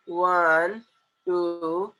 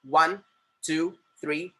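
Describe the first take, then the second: First: Drawn-out, lazy count; lax, loose counting. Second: Short, crisp numbers; tight, firm counting. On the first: Teacher showing how not to count on fingers, slack and drawn out. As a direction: let each number hang loosely. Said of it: "ढिल्ले सुल्ले बन के". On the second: Teacher showing the correct finger count, tight and firm. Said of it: "कड़क रखना है finger को एकदम ऐसा tight". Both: Shown as a demonstration.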